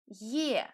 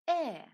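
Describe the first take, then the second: First: A Y sound comes before the vowel. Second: The vowel is said with no Y sound. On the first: The letter starts a word or follows a vowel. "When it is at the beginning of the word or after another vowel, we pronounce it as Ye" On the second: The letter is in any other position. "in all the other positions, we pronounce it simply as E"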